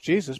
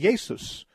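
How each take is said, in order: First: The name is said the English way. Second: The name is said the German way. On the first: "the English Jesus" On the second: "the J is pronounced like a Y"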